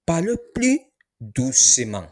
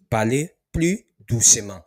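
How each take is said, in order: First: Parlez starts high, louder; teacher model of Parlez plus doucement. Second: Said in the usual way. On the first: Shown as a demonstration.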